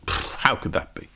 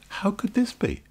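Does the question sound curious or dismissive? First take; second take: dismissive; curious. First: The question sounds scornful and dismissive. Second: The question sounds open and curious. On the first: The speaker rejects the idea as nonsense. "Yeah, dismissing it" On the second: The speaker wants to hear more. "Your tone of voice could be, how could this be? Tell me more"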